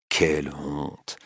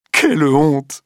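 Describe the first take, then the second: First: «Quelle honte! slow, low and soft; muttered shame. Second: Quelle honte! shrieked high and loud; crying out. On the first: Duroy alone, muttering «Quelle honte! to himself, softly. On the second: Clotilde shrieking "Quelle honte!" at her lover, loud. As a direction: fling "Quelle honte!" out in outrage. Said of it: "crie Madame de Marelle". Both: A narrator's reading.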